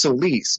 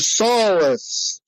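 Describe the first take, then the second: First: The second syllable has an 'ih' vowel. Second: The second syllable has an 'uh' vowel. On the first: This is the name's own pronunciation. The speaker calls it right. "it's Solis" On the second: This is how someone else says the name. The speaker calls it wrong. "he would always pronounce my name Mister Solus"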